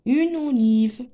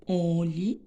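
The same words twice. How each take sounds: First: Said in the usual way. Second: "Olive" slowly broken up as "o", "li", "ve"; split into syllables. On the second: Shown as a demonstration. Teacher sounding out olive for pupils, syllable by syllable. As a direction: draw out each syllable of "Olive". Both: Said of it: "la syllabe".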